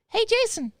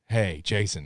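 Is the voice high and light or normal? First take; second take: high, light; normal. First: It is said in a higher, lighter child's voice. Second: It is said in his normal voice.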